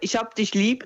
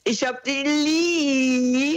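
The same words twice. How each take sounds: First: It is said quickly, at normal length. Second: It is said slowly, drawn out long.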